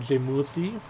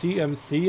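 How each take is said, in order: First: The letters are said the Korean way. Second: The letters are said the English way.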